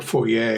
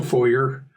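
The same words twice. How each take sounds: First: "foyer" ending in -ay; French-style foyer. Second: "foyer" ending in a plain -er; anglicized foyer. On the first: Game master correcting himself for the neighborhood, "foyer" said foy-AY. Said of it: "Given the neighborhood, it's probably". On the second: Game master describing the entry hall, "foyer" said FOY-er. Two pronunciations of foyer contrasted. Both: Shown as a demonstration.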